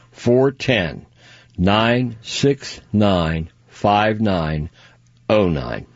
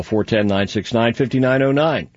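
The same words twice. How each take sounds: First: Phone number slowly, digit by digit; deliberate, spaced-out phone number; slow repeat. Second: Phone number rattled off quickly; quick, unbroken phone number read; too fast. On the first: Shown as a demonstration. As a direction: pause between groups so they can write it down. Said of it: "Did I say that too fast? I'll tell you again". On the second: Real, not acted. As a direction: run the digits together without pauses. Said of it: "Did I say that too fast?".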